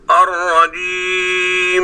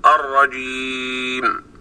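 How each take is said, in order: First: الرجيم with the final meem hummed very long; overlong nasal meem. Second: الرجيم slow, with a clear short meem at the end; correct final meem. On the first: Teacher imitating reciters who overdo the ghunna. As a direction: drag out the meem of الرجيم like a doubled letter. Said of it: "فمنهم من يزيد الغنة إلى أن نسمع". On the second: Teacher showing the correct stop on the meem. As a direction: close الرجيم on a plain, audible meem. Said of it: "فتقول". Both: Shown as a demonstration.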